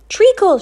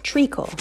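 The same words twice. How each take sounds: First: Much higher and louder, a full shout. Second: Said in the usual way. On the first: Acted. Flora bursts into the kitchen, shouting. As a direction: blurt the word out at the kitchen. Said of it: "she shouted". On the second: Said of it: "There was a word for that".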